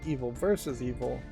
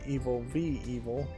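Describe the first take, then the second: First: The middle word is said as the full word versus. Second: The middle word is said as the letter v. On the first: The speaker calls it wrong. "I mispronounced this because I said Evil versus" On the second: The speaker calls it right. "this should be Evil v"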